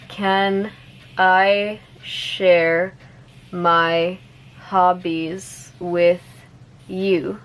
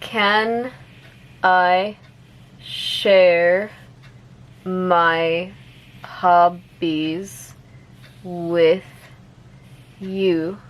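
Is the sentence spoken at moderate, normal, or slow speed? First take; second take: moderate; slow. First: The sentence is spoken a little faster. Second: The sentence is spoken slowly. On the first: "a little bit faster" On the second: "I'll say it slowly first"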